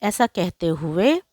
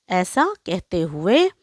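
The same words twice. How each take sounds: The two takes are said the same way.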